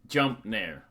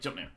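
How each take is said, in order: First: A short delay separates the two words. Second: The two words follow each other immediately. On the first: The aerial attack comes slightly later after the jump. The speaker calls it right. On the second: The aerial attack comes right after the jump. The speaker calls it wrong.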